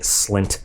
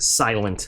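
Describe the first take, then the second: First: The name is said with one syllable. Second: The name is said with two syllables. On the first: This is the speaker's own preferred pronunciation. "I like calling it Slint" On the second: This is the maker's intended pronunciation. "they want you to pronounce it silent"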